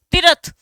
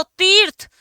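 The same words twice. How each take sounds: First: तीर्थ opened out as ti-ra-th with a full र; tadbhav pronunciation. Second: तीर्थ with a half र, tir-th in two beats; tatsam pronunciation. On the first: Teacher showing students the everyday form तीर्थ spoken as तीरथ. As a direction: say तीर्थ as तीरथ, three easy syllables. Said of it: "ये रह आधा है भाई". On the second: Teacher showing students the Sanskrit form तीर्थ, crisp half र. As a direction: clip the र short inside तीर्थ. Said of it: "अब मतलब कम जोर देना है". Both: Shown as a demonstration.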